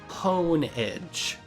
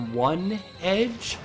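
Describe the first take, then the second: First: The name begins with the word hone. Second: The name begins with the word one. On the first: The name means sharpening a blade's edge. "because you hone the edge of a sword" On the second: The name means a single blade. "because it evolves into a Pokemon called Doublade"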